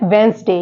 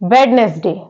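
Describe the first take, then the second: First: The d and middle vowel are silent. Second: The d and middle vowel are pronounced. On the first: The speaker calls it right. "होता है वेंसडे" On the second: The speaker calls it wrong. "लेकिन इसको mostly people क्या पढ़ते हैं"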